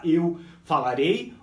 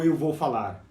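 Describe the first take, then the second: First: "eu falarei" slow with a lift on "eu"; slow teaching model; slow demo. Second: Said in the usual way. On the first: Shown as a demonstration. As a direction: model it slowly. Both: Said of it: "antes de você falar".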